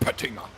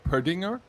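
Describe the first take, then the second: First: The middle consonant is a clear, crisp T. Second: The middle consonant is soft, almost a D. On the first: This is how German speakers say it. "But in German it is a T, so we speak it as a T" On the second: This is how English speakers say it. "in English the double T is softer. You almost it almost sounds like a D"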